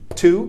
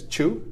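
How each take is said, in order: First: The word begins with a clear t sound. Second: The word begins with a ch sound. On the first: The speaker calls it right. "That would be the same pronunciation" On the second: The speaker calls it wrong. "It's not chew. Or like this, chew"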